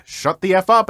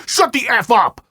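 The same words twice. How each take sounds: First: Said in the usual way. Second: High, loud snapped command; imitating a raging dad; mock furious shout at the narrator; retold angry yell. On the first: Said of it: "I did exactly what he said". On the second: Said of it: "he responded with".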